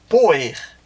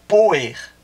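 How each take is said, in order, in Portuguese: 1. A palavra tem duas sílabas, terminando em -er. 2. A palavra tem duas sílabas, terminando em -er.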